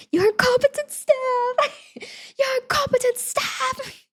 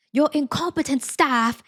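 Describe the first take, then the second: First: Very high, drawn-out screechy yell; hammed-up shriek in bad British accent; mock British yell. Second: Higher, drawn-out mock British complaint; terrible British accent. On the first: Shown as a demonstration. Telling viewer what to yell at teammates, mock British shriek. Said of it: "make sure you yell". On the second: Group joke quoting the British man, bad British accent. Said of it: "doing a terrible British accent".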